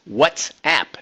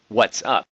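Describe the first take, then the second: First: The word ends with the vowel of 'app'. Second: The word ends with the vowel of 'up'. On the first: The speaker calls it right. "it's WhatsApp" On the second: The speaker calls it wrong. "not What's Up"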